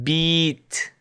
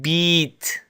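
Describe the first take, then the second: No difference in how they are said.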